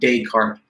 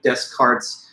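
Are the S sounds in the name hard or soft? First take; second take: soft; hard. First: The S sounds in the name are soft. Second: The S sounds in the name are hard. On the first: The speaker calls it right. "these would be soft S's" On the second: The speaker calls it wrong. "not like Descartes"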